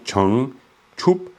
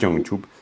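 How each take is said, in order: First: The word begins with a voiceless ch sound. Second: The word begins with a voiced j sound. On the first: The speaker calls it right. "c'est vraiment Changchup" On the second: The speaker calls it wrong. "c'est pas Jiangchup"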